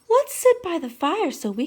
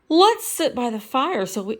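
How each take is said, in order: First: It is read in a put-on character voice. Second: It is read in a plain, everyday voice.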